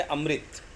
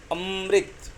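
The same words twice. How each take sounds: First: Said in the usual way. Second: Amrit with a heavy अ held into a long म; stress on first vowel. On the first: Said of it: "अ पे बलाघात इतना नहीं है". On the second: Shown as a demonstration. Teacher contrasting two words, Amrit stressed hard on अ. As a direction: lean on the opening अम् of Amrit and linger there. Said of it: "अ पे बलाघात बढ़ता है".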